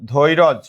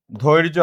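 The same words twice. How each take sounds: First: ধৈরজ as "dhoi-roj", ending on j; inserted vowel in ধৈরজ. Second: ধৈর্য as "dhoir-jo", r joined to j; no vowel after r in ধৈর্য; cluster in ধৈর্য. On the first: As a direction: put an o between r and j in ধৈরজ. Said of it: "ধৈর্য থেকে". ("ধৈরজ"-এ র-এর পরে অ) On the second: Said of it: "আমরা যদি বলি এইরকম". ("ধৈর্য"-তে র আর য যুক্ত উচ্চারণ) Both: Shown as a demonstration.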